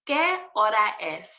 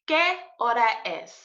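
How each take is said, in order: Both takes have the same delivery.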